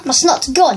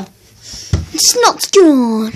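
First: Said in the usual way. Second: Drawn-out slow. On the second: Pretend. Telling viewers the snot is gone, very slow drawn-out. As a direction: stretch every word way out, very slow. Repeats line, second time drawn out.

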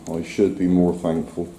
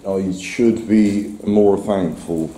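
First: Said in the usual way. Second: Slow, deliberate, leaning on should; slow emphatic self-reminder. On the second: Real, not acted. Half-serious, slow self-reproach. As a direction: says to himself that he should be more thankful, slowly. Repeats line, slower second take.

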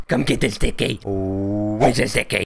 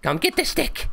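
First: Put-on baby-talk coax. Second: Much higher playful call to a pet; dog-calling voice. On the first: Luring the shark again, cutesy baby-talk coax. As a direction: back near normal pitch, cutesy baby word. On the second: Acted. Luring the shark with a stick, high pet call.

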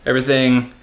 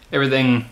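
Both takes have the same delivery.

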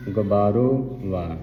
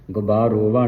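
First: Slow ਗੁਬਾਰੋ, then ਵਾ set apart; split pronunciation. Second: ਗੁਬਾਰੋ and ਵਾ joined as one word; no break between ਗੁਬਾਰੋ and ਵਾ; run-together misreading. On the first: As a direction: separate ਵਾ after a slow ਗੁਬਾਰੋ. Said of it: "ਸੰਬੰਧਕ ਲਾ ਕੇ ਉਚਾਰਨ". (ਗੁਬਾਰੋ ਤੇ ਵਾ ਵੱਖ-ਵੱਖ ਬੋਲੋ) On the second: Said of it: "ਨਹੀਂ ਪੜ੍ਹਨਾ". (ਗੁਬਾਰੋ ਵਾ ਜੋੜ ਕੇ ਬੋਲੋ) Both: Shown as a demonstration.

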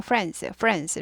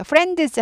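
First: "friends" run together as "frens". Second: "friends" with the d sounded as its own "deu"; d 또렷한 발음. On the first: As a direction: let the d in "friends" disappear. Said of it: "드는 발음은 하는데 튀지 않습니다". ("friends"의 '드'가 튀지 않게) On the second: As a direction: spell out the d in "friends". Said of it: "friends 하지 않고 friends". ("friends"의 '드'를 따로 살린 발음) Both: Shown as a demonstration.

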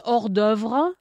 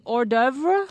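First: "Hors d'oeuvre" with French Rs, final -vre sounded; French pronunciation. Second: "Hors d'oeuvre" anglicised as "or-DERV-uh", questioning; English pronunciation. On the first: Offering an example word to colleague, French "Hors d'oeuvre". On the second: Asking colleague what English speakers would say, anglicised "Hors d'oeuvre". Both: Shown as a demonstration. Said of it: "So in English, what would you say?".

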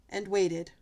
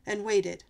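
Both takes have the same delivery.

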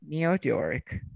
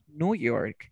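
First: "New York" as "Nyoo York"; British pronunciation. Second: "New York" as "Noo York"; no y-glide in the "New" of "New York"; American pronunciation. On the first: Teacher confirms the British answer, "New York" as "Nyoo York". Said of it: "¿Y cómo sería en británico?". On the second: Teacher confirms the American answer, "New York" as "Noo York". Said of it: "¿cómo se diría Nueva York en americano?". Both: Shown as a demonstration.

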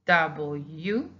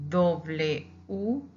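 First: Said in the usual way. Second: W said as "doble u"; Spanish "doble u", each part distinct; Spanish letter name. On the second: Shown as a demonstration. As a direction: say W U in Spanish, "DOH-bleh oo". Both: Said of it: "two ways to say the official name".

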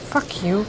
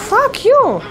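First: Muttered curse. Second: Loud, high furious yell; yelled curse. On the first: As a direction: grumble it under your breath. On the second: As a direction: scream it at the attacker. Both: Real, not acted. Cursing enemy, then yelling it.

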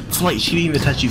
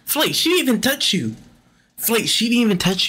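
First: Said in the usual way. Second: High, disbelieving cry at the screen; can't believe she never touched him; incredulous. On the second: Real, not acted. Calling out to Flight in disbelief, high and incredulous. Yelling at player missing call.

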